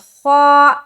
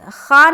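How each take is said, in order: First: The letter is said heavy, with rounded lips. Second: The letter is said thin, with an open mouth. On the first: The speaker calls it right. "इसे हेवी बनाकर पढ़ेंगे" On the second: The speaker calls it wrong. "खा नहीं पढ़ेंगे"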